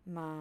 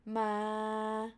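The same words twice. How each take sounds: First: Soft "ma" held low. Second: "ma" long and level at normal pitch; mid tone. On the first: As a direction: drop "ma" below normal pitch, straight. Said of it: "low pitch". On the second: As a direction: keep "ma" straight in mid pitch. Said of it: "mid pitch". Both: Shown as a demonstration.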